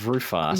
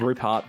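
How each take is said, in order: First: The name sounds like roof heart. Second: The name sounds like Rupert. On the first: This is how the audiobook narrator says it. "Penn is reading the name as Rufart" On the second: This is how the reader said it in his head. "I'm reading it all as Rupert"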